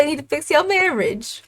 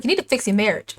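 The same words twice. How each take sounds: First: Mock yelling. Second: Mild acted jab at dad; understated teen back-talk, near usual voice; acted retort. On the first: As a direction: throw it at dad higher, stretching out MARRIAGE. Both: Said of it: "She is yelling at him".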